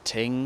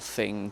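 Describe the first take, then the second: First: The word begins with a t sound. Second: The word begins with a th sound. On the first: "or thing to ting" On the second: "or thing to ting"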